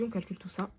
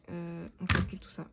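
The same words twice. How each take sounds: First: Said in the usual way. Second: Whispering. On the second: Real, not acted. Whispered repeat while calculating.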